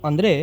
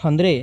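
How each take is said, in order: The two takes are said the same way.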